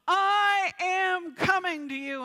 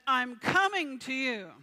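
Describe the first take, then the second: First: It is yelled at full strength. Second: It is said at a normal volume. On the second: "he would just repeat some of the words of the scripture"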